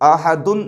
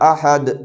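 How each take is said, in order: First: The word ends with an added 'un' syllable. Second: The word ends on a bare 'd' consonant. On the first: The speaker calls it wrong. "अहदुन नहीं पढ़ेंगे" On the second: The speaker calls it right. "इस दो पेश को जस्म से बदल देंगे"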